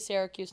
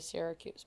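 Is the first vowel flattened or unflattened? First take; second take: unflattened; flattened. First: The first vowel is not flattened. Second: The first vowel is flattened, upstate New York style.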